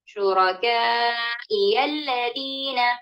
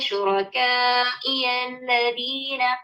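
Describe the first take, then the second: First: The stress falls on the ya sound. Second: The stress falls on the hamza sound. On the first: The speaker calls it wrong. "नब्बर हम लोगों ने कहाँ डाला? हरफल या पर।" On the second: The speaker calls it right. "Hamza पर नबर है"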